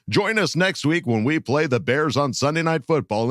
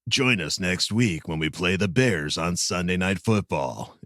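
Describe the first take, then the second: First: It is said in a pitchy infomercial voice. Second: It is said in a calm gum-ad voice. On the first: "an infomercial voice" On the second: "Can you do the last line in that voice?"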